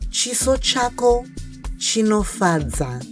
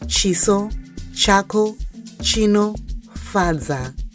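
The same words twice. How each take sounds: First: It is said faster, words run together. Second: It is said slowly, word by word.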